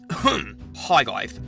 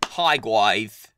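First: It is said in a put-on character voice. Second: It is said in the speaker's natural voice. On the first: "I can do a different voice if you want. Watch this" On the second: "Is this your actual voice"

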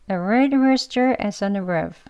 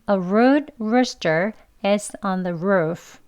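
First: The r sounds are pronounced weakly and lightly. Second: The r sounds are pronounced strongly and tensely. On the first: "이제 약하게 발음해 볼게요" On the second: "강하게 발음 먼저 해볼게요"

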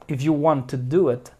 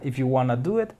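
First: Both words "want to" are said in full. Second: "Want to" is reduced to "wanna". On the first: This is how British speakers would say it. "británico no se diría así. Ellos dirían" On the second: This is how American speakers say it. "Los americanos sí dicen wanna"

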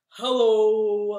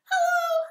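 First: It is said in a low voice. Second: It is said in a high voice.

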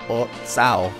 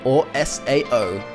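First: It is said as one word, like "so". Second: It is spelled out as three separate letters.

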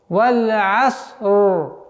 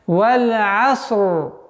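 No difference in how they are said.

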